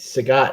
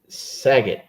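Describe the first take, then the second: First: The name does not sound like Saget. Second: The name sounds like the surname Saget. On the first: The speaker calls it right. "It's, it's Sagat" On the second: The speaker calls it wrong. "you're making me think of Bob Saget when you say"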